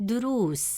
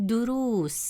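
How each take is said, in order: Both takes have the same delivery.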